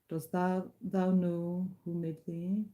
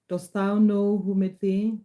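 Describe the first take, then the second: First: It is read quietly in a low voice. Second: It is read louder in a higher voice.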